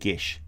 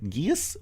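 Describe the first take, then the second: First: The word is said with the Irish pronunciation. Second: The word is said with an anglicized pronunciation. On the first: The speaker calls it right. "the Irish way is Gesh" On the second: The speaker calls it wrong. "Gies is how I used to say it before I found out"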